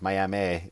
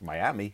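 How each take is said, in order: First: Miami is said the different, local way. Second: Miami is said the familiar, everyday way. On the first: The gig was really in the Oklahoma town. "they pronounce it" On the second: The speaker thought the gig was in the Florida city. "I thought it was like Miami"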